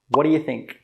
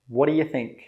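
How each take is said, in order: Both takes have the same delivery.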